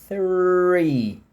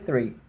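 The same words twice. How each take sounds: First: The word is said slowly and exaggerated. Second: The word is said quickly and naturally. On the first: "vou falar bem devagarinho o número três" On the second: "se eu falo rápido"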